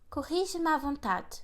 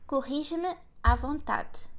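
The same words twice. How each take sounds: First: The phrase is spoken at a faster pace. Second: The phrase is spoken at a slower pace.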